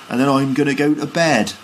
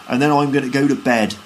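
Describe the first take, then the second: Both takes have the same delivery.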